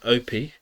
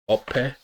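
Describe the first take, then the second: First: The name is said with an anglicized pronunciation. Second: The name is said with its traditional pronunciation. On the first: It follows the pronunciation of the people who raised him. The speaker calls it wrong. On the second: It respects the name's cultural identity. The speaker calls it right.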